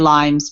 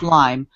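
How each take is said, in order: First: The word ends with an added s sound. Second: The word ends without any s sound. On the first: The speaker calls it wrong. "people say Limes" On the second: The speaker calls it right. "but it's Lyme"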